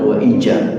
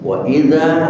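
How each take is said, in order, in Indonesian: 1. Konsonannya bunyi j. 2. Konsonannya jelas bunyi z. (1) "Jangan sampai pecah sehingga terdengar suara ja" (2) "bukan wa ija"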